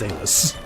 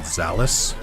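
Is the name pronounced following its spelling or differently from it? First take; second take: differently; following spelling. First: The name is pronounced differently from its spelling. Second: The name is pronounced the way it is spelled. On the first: The speaker calls it right. "Come on, it's Zalus" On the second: The speaker calls it wrong. "They made the classic blunder of pronouncing it Zalus"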